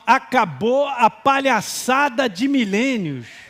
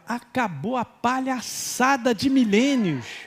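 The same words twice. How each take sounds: First: It is said very loudly. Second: It is said at normal volume.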